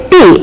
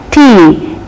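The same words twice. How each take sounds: First: "T" with the tongue toward mid-palate; a higher-pitched "T", tongue curled to the palate; wrong T. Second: "T" with tongue tip at the teeth ridge; correct English T. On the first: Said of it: "But we tend to say". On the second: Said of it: "We have to say as". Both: Shown as a demonstration.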